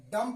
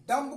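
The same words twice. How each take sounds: First: "डम" ending on m, no b; silent b. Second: "डम्ब" with the final b sounded; as written. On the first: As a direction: leave off the b after "डम". ("डम" में ब silent) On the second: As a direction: finish "डम्ब" on an audible b. ("डम्ब" में ब बोलकर) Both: Shown as a demonstration. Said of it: "डम पढ़ा जाएगा".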